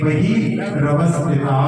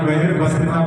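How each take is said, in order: First: The r sound is kept apart from the next word. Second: The r sound is run into the next word. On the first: The speaker calls it right. "उस रा को हम साथ में नहीं पढ़ते" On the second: The speaker calls it wrong. "कई बार वह व्यवस्थिता पढ़ते हैं"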